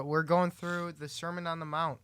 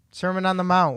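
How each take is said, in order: First: Mumbled away from the mic; softly, off mic; too quiet. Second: Louder, right into the mic. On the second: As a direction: speak up into the mic. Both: Real, not acted. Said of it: "You gotta talk into the mic".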